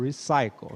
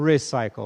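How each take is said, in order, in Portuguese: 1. A sílaba tônica é a segunda. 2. A sílaba tônica é a primeira. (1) "eu falo recycle, né? É mais forte aqui" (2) "eu não falo recycle"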